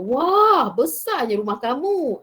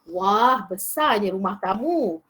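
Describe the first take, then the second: First: It is said with lively, exclamatory intonation. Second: It is read plainly without expressive exclamation.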